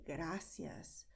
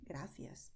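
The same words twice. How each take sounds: First: Gracias with a plain s, Latin American style; Latin American pronunciation. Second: Gracias with a lisped th, as in Spain; Spanish pronunciation. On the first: Teacher showing Latin American gracias with a clear s. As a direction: say gracias with an s sound. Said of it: "the way it's pronounced in Latin America". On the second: Teacher showing Spain's gracias, th sound in the middle. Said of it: "this is the way we pronounce in Spain". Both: Shown as a demonstration.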